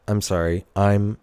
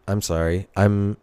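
The two takes are said the same way.

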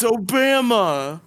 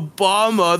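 First: "Obama" said oh-BAM-uh, slow and high. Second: "Obama" said oh-BAH-muh. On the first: Stubborn mispronouncer insists, "Obama" as slow, high oh-BAM-uh. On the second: Stubborn mispronouncer rejects the correction, "Obama" as oh-BAH-muh. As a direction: say "Obama" with an ah in the middle. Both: Acted. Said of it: "it was pronounced Obama".

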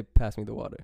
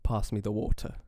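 First: American accent, short flat A in "Pass"; plain American pronunciation of "Pass" and "water". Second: Imitated British accent, long AH in "Pass"; careful try at English "water" with a clear T; attempted English accent. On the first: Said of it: "you say, you say". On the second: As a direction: copy the English accent, evenly. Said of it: "try to do an English accent". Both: Shown as a demonstration.

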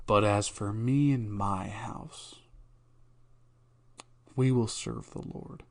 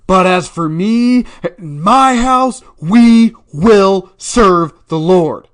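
First: Slow hushed whisper of the verse. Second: Much higher, much louder, slow proclamation; proclaiming shout. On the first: Host demonstrating one way to read the verse, whispered. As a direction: breathe the verse out like a secret. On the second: Host demonstrating the verse as a loud, slow preacher's shout. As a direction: thunder it like a preacher from the pulpit. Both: Shown as a demonstration. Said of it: "There's multiple ways to read it".

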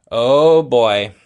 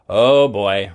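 First: "Oh boy" louder, in a put-on character voice. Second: Put-on "Oh boy" echoed lower, a touch louder. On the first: David dreading the talk about the closet, "Oh boy" louder in a kid voice. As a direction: groan out "Oh boy" like a kid in trouble. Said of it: "said David". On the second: Adam echoing David about the closet, "Oh boy" lower. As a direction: echo "Oh boy" lower, like the second brother. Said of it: "repeated Adam".

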